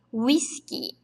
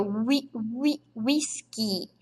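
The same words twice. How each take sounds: First: Said in the usual way. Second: "wi-" isolado e devagar, depois "whisky" inteiro; syllable by syllable. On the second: Shown as a demonstration. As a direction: separa "wi-" bem lento antes de "whisky". ("wi-, wi-, whisky" soletrado devagar) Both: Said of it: "Olha aqui, ó".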